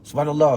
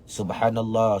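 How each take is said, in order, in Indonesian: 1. Frasa itu diucapkan cepat, berturut-turut. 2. Frasa itu diucapkan perlahan dan hati-hati. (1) "maka dekat lidah jadi laju tak?" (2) "afdal baca dengan menjaga lidah"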